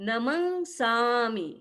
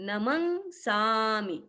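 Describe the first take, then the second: No difference in how they are said.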